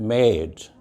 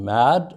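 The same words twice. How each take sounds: First: "made" with a long A, as in "day"; teacher's long-vowel "made", falling at the end; long A demo. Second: "mad" with a short, open A; teacher's short-vowel "mad"; short A demo. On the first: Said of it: "A long". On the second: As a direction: model "mad" with the brief A vowel. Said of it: "and A short". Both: Shown as a demonstration.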